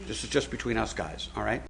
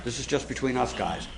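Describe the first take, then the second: First: Softer hushed aside after a shush; whispering a secret. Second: Hushed, conspiratorial aside; whispering a secret. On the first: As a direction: drop even quieter, like sharing gossip. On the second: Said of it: "Can I let you in on a little secret?". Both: Pretend.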